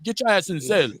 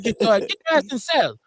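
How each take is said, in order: First: Lightly put-on Russian accent; a hint of a Russian guard; mock Russian accent. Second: Put-on higher, louder Asian accent take; mock Asian accent. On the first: Mimicking a Russian guard in a mild Russian accent. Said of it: "My Russian shit". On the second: Same line in a mock Asian accent. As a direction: shout it like a cartoon guard. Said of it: "break out my Asian accent".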